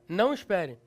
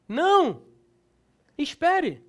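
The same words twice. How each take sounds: First: The two words run together without a pause. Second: There is a pause between the two words. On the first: Tells the listener not to wait. "Mudança de sentido" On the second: Refuses something, then asks the listener to wait. "A vírgula pode mudar o sentido"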